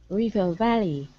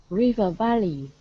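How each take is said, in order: The two takes are said the same way.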